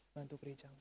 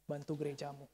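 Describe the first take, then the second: First: Hushed, softer repeat; soft appeal. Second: Said in the usual way. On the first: Real, not acted. Preacher urging congregation to help their church, soft appeal. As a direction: let it drop into a quiet plea.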